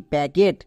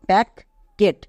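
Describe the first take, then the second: First: প্যাকেট blended as one word with a single k; the right way: প্যাকেট, no doubled k; correct pronunciation. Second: প্যাক and কেট said as two separate chunks, each with its own k sound; the wrong way: প্যাক plus কেট, doubling the k; wrong split pronunciation. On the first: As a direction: say প্যাকেট smoothly, one k only. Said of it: "কেন এখানে দুটো কো হয়নি". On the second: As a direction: say প্যাক then কেট with a break between them. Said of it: "কিন্তু আমরা এরকম উচ্চারণ করি না". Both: Shown as a demonstration.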